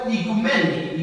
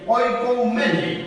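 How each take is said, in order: First: The word begins with an 'ee' sound. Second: The word begins with an 'oy' sound. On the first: This is the modern Greek form. "se pronuncia en griego, en el griego moderno" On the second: This is the ancient Greek form. "viene del griego antiguo"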